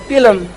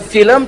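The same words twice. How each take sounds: First: The word begins with a sound other than F. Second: The word begins with an F sound. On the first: "tapi jadi film" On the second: "bukan film"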